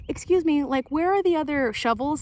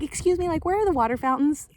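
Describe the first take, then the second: First: A hint of a lost volunteer, higher voice; mild mock polite question; polite stranger. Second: Higher voiced polite volunteer asking; a hint of a lost stranger, pitch lifted; lightly mocked polite question. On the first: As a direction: ask politely for the shovels, pitch lifted. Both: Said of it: "they'd be like".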